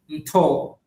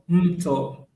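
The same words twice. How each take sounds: First: The stress is on the last syllable. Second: The stress is on the first syllable. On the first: It means pillow. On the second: It means river.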